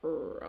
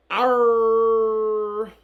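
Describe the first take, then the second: First: A half-hearted pirate warm-up; weak pirate growl. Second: Very loud, long-held pirate "arr"; pirate roar. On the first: Teacher testing a pirate voice for the class, weak pirate growl. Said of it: "bring out my pirate voice". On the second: Teacher retrying the pirate voice for the class, pirate roar. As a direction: belt out a full-force pirate cry. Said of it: "That sounded better". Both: Shown as a demonstration.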